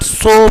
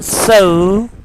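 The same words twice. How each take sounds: First: The vowel has a Pakistani English sound. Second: The vowel has a standard English sound. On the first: The speaker calls it wrong. "is not so" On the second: The speaker calls it right. "but so"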